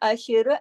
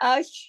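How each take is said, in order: First: The final sh sound bounces into an extra vowel. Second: The final sh sound is held and stopped cleanly. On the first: The speaker calls it wrong. "अगर मैं इसको हिला दूंगी तो गलत हो जाएगा ना" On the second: The speaker calls it right. "जब मैंने अश किया तो मैं एक लम्हे एक सेकंड के लिए शीन पे जैसे रुकी सी हूँ"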